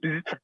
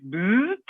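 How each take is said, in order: First: "Boots" said short and quick; short pronunciation. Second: "Boots" stretched long, sliding up at the end; drawn-out pronunciation. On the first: Host offers the other company-name option, "Boots" kept short. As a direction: cut "Boots" short, without stretching the vowel. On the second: Host jokes over a Swedish company name, "Boots" drawn out. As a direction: draw out "Boots" with a rising, questioning end. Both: Shown as a demonstration. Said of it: "Sven and I have this joke, is it".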